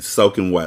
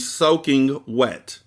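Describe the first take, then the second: First: The g at the end of soaking is dropped. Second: The g at the end of soaking is pronounced.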